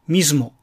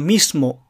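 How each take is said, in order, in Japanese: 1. 「s」の音は有声音で、「z」のような音です。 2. 「s」の音は無声音です。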